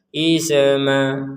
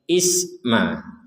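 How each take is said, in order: First: The s is released with a short echoing vowel. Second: The s stops cleanly with no echoing vowel. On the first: The speaker calls it wrong. "jangan seperti itu" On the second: The speaker calls it right. "is mati, tidak ada pantulan, tidak ada e"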